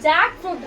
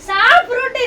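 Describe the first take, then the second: First: The k sound is said before fruit. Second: The k sound is dropped before fruit. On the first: The speaker calls it right. "ஜாக் fruit தான் இருக்கு" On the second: The speaker calls it wrong. "சாப்ரூட் இல்ல"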